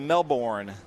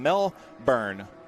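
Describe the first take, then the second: First: It is said the way Americans say it. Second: It is said in a non-American way.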